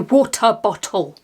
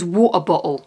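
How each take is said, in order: First: It is said in the speaker's own accent. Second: It is said in a stereotyped regional English accent.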